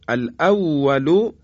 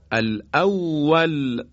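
First: الاول read alawalu with full final vowel; الاول with vowelled ending; connected form. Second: الاول slowly recited ending on a silent l; slow Quranic stop on الاول; pausal form. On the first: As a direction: keep the u on الاول, rising as if continuing. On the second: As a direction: stop on الاول, dropping the final vowel, chanted slowly. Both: Shown as a demonstration. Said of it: "قسمت دوم وقف اسکان هست".

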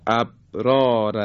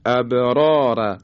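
First: ابرار said quickly, the ب closed flat with no bounce; without qalqala. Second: ابرار drawn out slowly, the ب bounced with a small echo after the stop; slow careful ابرار with a clear bounce on ب; correct qalqala on ابرار. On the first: Teacher showing students the wrong ابرار, flat ب. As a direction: swallow the ب in ابرار. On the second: Tajwid teacher showing students the right ابرار, bounced. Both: Shown as a demonstration.

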